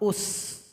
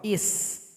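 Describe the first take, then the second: First: The word begins with a u vowel. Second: The word begins with an i vowel. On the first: "Kadang dibaca dengan dhamma" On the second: "Kadang dibaca kasroh"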